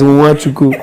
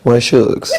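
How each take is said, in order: First: The name is said in full, ending in a vowel. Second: The name is clipped, ending in an s sound. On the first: This is the actual form of the name. "So it's" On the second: This is a casual, showbiz version of the name. "The celebrity pronunciation is"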